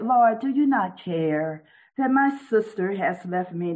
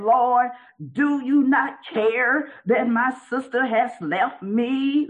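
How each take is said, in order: First: It is said in a calm, even tone. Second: It is said in a sharp, accusing tone. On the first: A sincere, respectful question. "she wasn't saying it like" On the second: A complaint that blames someone. "you know how you'd be saying that"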